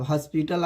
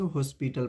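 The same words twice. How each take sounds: First: हॉस्पिटल as "haspital"; wrong pronunciation. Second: हॉस्पिटल as "hoe-spital"; correct pronunciation. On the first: Teacher bans the old reading, हॉस्पिटल with "a". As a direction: give हॉस्पिटल an open "a". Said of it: "नहीं पढ़ेंगे". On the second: Teacher sets the new reading, हॉस्पिटल with "o". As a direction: give हॉस्पिटल a rounded "o". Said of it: "हॉस्पिटल पढ़ेंगे". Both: Shown as a demonstration.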